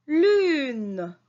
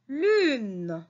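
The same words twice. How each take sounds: First: Louder repeat. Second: Said in the usual way. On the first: Shown as a demonstration. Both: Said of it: "vous lisez avec moi".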